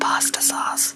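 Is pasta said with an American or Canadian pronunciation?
American. Pasta is said with an American pronunciation. "instead of pasta sauce"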